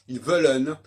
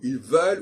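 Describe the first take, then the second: First: The final -en ending is pronounced aloud. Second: The final -en ending is left silent. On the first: The speaker calls it right. "il faut dire" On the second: The speaker calls it wrong. "et non pas"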